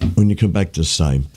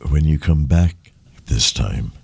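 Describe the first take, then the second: First: It is said in an ordinary speaking voice. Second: It is said in a deep, smooth radio voice.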